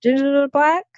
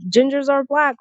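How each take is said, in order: First: BLACK lifted in a rising question; incredulous echo question. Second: Mock claim, BLACK stated as fact; quoted assertion. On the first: Retold or imitated. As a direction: throw it back higher, rising on "black" as a doubting question. Throws the claim back as question. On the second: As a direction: state "Gingers are black" higher, as a quoted claim, without a questioning rise. Quotes others' claim, then queries it.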